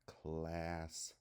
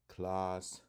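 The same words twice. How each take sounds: First: The A is a short, flat vowel. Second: The A is a broad, open vowel. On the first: "it usually makes the short A sound" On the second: "it is kind of a broad sound in comparison to the short A"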